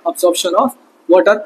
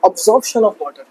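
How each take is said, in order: First: Absorption of water said word by word, very slowly; slow, deliberate dictation of each word; slow, dictating. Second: Said in the usual way. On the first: Shown as a demonstration. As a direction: spell it out slowly so students can write it down. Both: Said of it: "क्या हो रहा है?".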